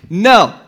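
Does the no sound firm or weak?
firm. It is said firmly, with conviction.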